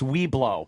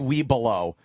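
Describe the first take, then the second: First: The name is said with two syllables. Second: The name is said with three syllables. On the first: The speaker calls it right. "It's we blow" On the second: The speaker calls it wrong. "don't say we below"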